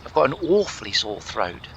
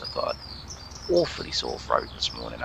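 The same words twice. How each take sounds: First: Put-on plummy royal English accent, repeating the line; hammed-up King Charles impression; mock Prince Charles. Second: Low, plummy English voice; unintentionally very English delivery; posh English accent. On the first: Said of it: "I've turned into Prince Charles". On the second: Real, not acted. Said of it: "that was very English".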